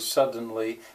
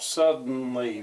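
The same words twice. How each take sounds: First: The middle consonant is a full d sound. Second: The middle consonant is a glottal stop. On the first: This is the careful way of saying it. "if I'm being careful" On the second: This is the everyday way of saying it. "that's a glottal stop"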